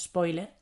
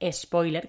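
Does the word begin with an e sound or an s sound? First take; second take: S sound; E sound. First: The word begins directly with an s sound. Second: The word begins with an added e sound.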